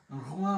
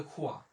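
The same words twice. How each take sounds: First: রোয়া opened with a voiced throaty r; French r. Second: খোয়া opened with a voiceless "kh"; mistaken kh sound. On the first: Teacher giving the French word for king, throaty-r রোয়া. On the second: Teacher showing how king turns wrong, kh-sound খোয়া. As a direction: say খোয়া, hardening the r into kh. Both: Shown as a demonstration. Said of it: "তখন হয়ে যাবে খোয়া".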